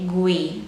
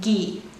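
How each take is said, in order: First: A u sound is heard after the g. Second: No u sound is heard after the g. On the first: The speaker calls it wrong. "so it's not gue, gui" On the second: The speaker calls it right. "It's ge, gi"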